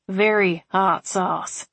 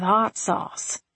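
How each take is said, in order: First: "Very hot sauce" drawn out slowly, "Very" hit hard; stress on VERY. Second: Said in the usual way. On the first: A narrator's reading. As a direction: lean hard on "Very", slow all three words.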